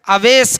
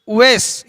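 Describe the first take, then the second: First: The name begins with an 'a' vowel. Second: The name begins with a 'u' vowel. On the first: This is the common local form of the name. The speaker calls it wrong. "हम यहाँ पर अपनी ज़बान में ज़्यादातर नाम जो मशहूर है अवैस कहते हैं" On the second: This is the original form of the name. The speaker calls it right. "अलिफ के ऊपर पेश, उवैस ये सही नाम है"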